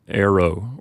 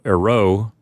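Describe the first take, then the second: First: The stress is on the first syllable. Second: The stress is on the last syllable. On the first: The speaker calls it right. "you'll pronounce it arrow or something like that" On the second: The speaker calls it wrong. "you're never supposed to put the accent on the final syllable"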